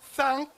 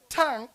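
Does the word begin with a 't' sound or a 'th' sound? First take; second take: th; t. First: The word begins with a 'th' sound. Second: The word begins with a plain 't' sound. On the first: "thank becomes tank" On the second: "we just chop off the H"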